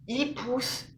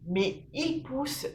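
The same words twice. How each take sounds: First: Said in the usual way. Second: Slow, stretched il pousse with weight on il; il pousse, said slowly with heavy stress on il; emphatic repeat. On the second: Real, not acted. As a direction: drag il pousse out to show how much it grows. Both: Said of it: "repeats phrase for emphasis".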